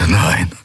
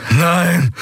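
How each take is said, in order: First: Mild gasp of shock. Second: High, falling cry of denial; horrified cry. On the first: A narrator's reading. Prisoner realising the commodore's triumph, gasped. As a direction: let it out on a short breath. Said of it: "keuchte Telios". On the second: Acted. Prisoner collapsing to the floor, horrified cry. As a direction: cry out against the realisation.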